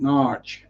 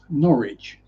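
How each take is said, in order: First: It is said as one syllable, Narch. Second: It is said as two syllables, Norridge. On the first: This is how locals say it. "locals pronounce it Narch, N A A R C H" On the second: This is how non-locals say it. "it's pronounced Norwich, pronounced N O R R I D G E"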